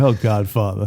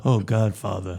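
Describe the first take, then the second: First: Low, soft and pleading; whiny Johnny impression. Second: Low, soft and nasal plea; nasal Johnny impression. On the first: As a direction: plead weakly like a crooner. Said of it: "he's like". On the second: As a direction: whine it through the nose. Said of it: "you gave it too nasally".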